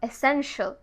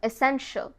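Both takes have the same delivery.

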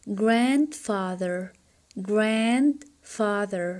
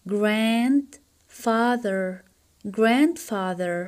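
No difference in how they are said.

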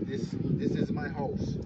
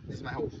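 First: Said in standard English with the words kept separate. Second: Said in Creole with the words run together. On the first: "In English, you say" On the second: "We say in Creole, ... stick the words together"

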